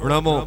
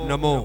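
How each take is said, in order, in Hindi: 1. यह न मूर्धन्य है, जीभ पीछे की ओर मुड़ी होती है। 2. यह न दंत्य है, जीभ सपाट रखी होती है। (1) "प्रारंभ है णमो, णमो णमो बोलो" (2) "बोला जा रहा है नमो नमो नमो ... अशुद्धता को लिए हुए है"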